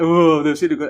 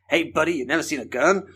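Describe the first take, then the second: First: Lightly acted English tourist. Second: Put-on American buddy; American accent. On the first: English visitor reacts to a first gun, mock awe. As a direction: play a mildly amazed English visitor. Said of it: "we've never seen guns before". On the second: American teases English visitor about guns, put-on American accent. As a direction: lightly mimic an American questioning a friend. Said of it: "that's my American accent".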